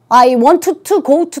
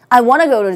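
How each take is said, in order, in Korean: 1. 'want to'의 두 단어는 각각 따로 발음됩니다. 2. 'want to'는 매끄럽게 이어져 'wanna'로 발음됩니다.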